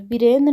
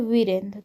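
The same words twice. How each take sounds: First: The word begins with a b sound. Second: The word begins with a v sound. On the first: The speaker calls it wrong. "वीरेंद्र नहीं" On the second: The speaker calls it right. "तो वीरेंद्र हो जाएगा"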